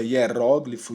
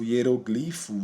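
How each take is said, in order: First: "hieróglifo" stressed on RÓ; double prosody variant. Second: "hieroglifo" stressed on GLI; double prosody variant. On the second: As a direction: say "hieroglifo" slowly as hie-ro-GLÍ-fo. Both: Shown as a demonstration. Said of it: "palavras com dupla prosódia".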